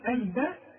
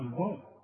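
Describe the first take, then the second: First: The first consonant is said light and thin. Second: The first consonant is said heavy and thick. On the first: The speaker calls it right. "هنقول الباب والراء هي المفخمه" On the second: The speaker calls it wrong. "اوعى تقول لي بقى الباب"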